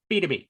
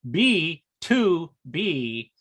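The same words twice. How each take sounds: First: The parts run together as one word. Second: Each part is said separately and distinctly. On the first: The speaker calls it right. "It's like one. It's one word" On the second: The speaker calls it wrong. "as our announcer says it"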